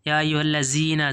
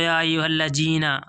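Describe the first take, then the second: First: The consonant is said like a z sound. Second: The consonant is said like a j sound. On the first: "ज़ा की आवाज़ भी नहीं निकालेंगे दोस्तों" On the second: "ऐसे नहीं पढ़ेंगे दोस्तों, इसको जीम की आवाज़ नहीं निकालेंगे।"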